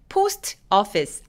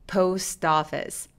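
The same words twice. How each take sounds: First: The two words are said separately. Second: The two words are linked into one. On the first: The speaker calls it wrong. "아니고" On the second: The speaker calls it right. "연결해 보면 어떻게 소리 나죠?"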